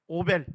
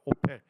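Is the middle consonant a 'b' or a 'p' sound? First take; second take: b sound; p sound. First: The middle consonant is a soft b sound. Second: The middle consonant is a p sound. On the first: This is the form used in the Korean Bible. "성경에 오벨이라고 나오죠?" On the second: This is the English pronunciation. "영어 발음을 하면 오펠이 됩니다"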